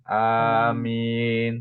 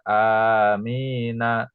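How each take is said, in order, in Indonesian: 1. Kata ini berakhir pada konsonan n. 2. Kata ini berakhir pada vokal a yang ditambahkan. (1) "jadi sukun amin" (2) "tidak amina"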